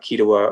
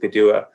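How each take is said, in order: First: The name begins with a K sound. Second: The name begins with a G sound. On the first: It is the Western or Oklahoma way of saying it. "it's pronounced as K by Western Cherokee or Oklahoma Cherokee speakers" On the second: It is the local Eastern Band way of saying it. "Gidua is the Eastern Band pronunciation"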